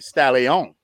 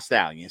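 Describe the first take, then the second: First: Stallion said as "stal-ee-OHN"; stage-name pronunciation. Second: Said in the usual way. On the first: Shown as a demonstration. Trying out his stripper name, Stallion pronounced "stal-ee-OHN". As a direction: stretch Stallion into three beats, ending in a long "OHN". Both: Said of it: "I like that better. Not Stallion".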